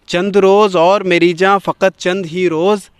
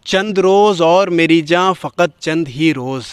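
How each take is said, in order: Both takes have the same delivery.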